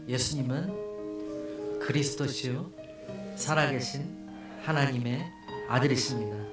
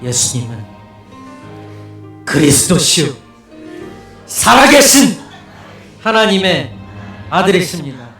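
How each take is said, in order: First: It is said in a plain, ordinary voice. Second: It is said forcefully, deep from the belly.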